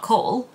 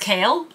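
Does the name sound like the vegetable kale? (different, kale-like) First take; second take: different; kale-like. First: The name does not sound like the vegetable kale. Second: The name sounds like the vegetable kale. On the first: The speaker calls it wrong. "It's not Cole" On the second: The speaker calls it right. "it was kale, like the vegetable"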